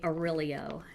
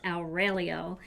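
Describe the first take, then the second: First: The name is pronounced in an anglicized way. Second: The name is pronounced in a non-anglicized way. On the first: The speaker calls it wrong. "I used to say Aurelio, and he said, that is not how you say your name" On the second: The speaker calls it right. "it's Aurelio. So I'm trying to say it right"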